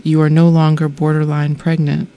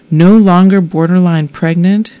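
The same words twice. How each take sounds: First: Said in the usual way. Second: Louder, rising, incredulous echo; stunned disbelief. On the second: Retold or imitated. Woman echoing the nurse in shocked disbelief. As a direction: repeat it as if you can't believe it. I thought I might fall over.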